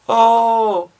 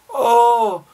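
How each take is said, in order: Both takes have the same delivery.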